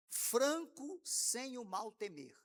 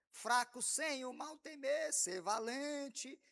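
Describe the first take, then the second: First: "Franco" said slowly with its nasal N fully sounded; correct Franco. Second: "Fraco" said slowly with no N, as the congregation sings it; wrong Fraco. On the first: Shown as a demonstration. Teacher quoting the hymn line right, "Franco" with a clear nasal N. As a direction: slowly voice the N in "Franco", sem o mal temer. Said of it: "quase todo mundo canta fraco". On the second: Retold or imitated. Teacher imitating the congregation singing it wrong, "Fraco" with no N. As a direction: slowly drop the N: "Fraco", not Franco. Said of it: "canta fraco".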